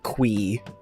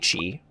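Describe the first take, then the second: First: The word is pronounced like 'kwee'. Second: The word is pronounced like 'chee'. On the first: This is how the game's developer says it. The speaker calls it wrong. "Kind of hate that pronunciation" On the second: This is how the speaker says it. The speaker calls it right. "I say chi, which makes sense"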